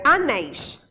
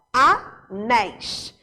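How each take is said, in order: First: Said in the usual way. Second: "anéis" split as A... NÉIS, very slow; syllable by syllable. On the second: Shown as a demonstration. Teacher proving the last syllable is stressed in "anéis", slowly split A-NÉIS. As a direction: stretch "anéis" into two syllables, landing on final NÉIS. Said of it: "última sílaba que tá acentuada".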